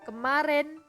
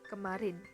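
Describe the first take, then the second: First: The last vowel is an open e. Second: The last vowel is a clear i. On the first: The speaker calls it wrong. "I diucapkan menjadi e taling" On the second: The speaker calls it right.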